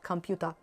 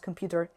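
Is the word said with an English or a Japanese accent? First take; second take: Japanese; English. First: It is said with a Japanese katakana pronunciation. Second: It is said with an English pronunciation. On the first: The word was written in katakana in the lyrics. "and not computer" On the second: The word was written in English in the lyrics. "if he had the word computer written in English, he would pronounce computer"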